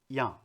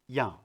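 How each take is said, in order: Both takes have the same delivery.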